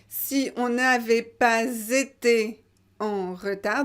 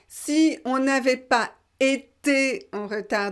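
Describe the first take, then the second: First: A linking z sound joins 'pas' to 'été'. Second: No linking sound is heard between 'pas' and 'été'. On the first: "donc liaison" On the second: "on ne fait pas toujours les liaisons"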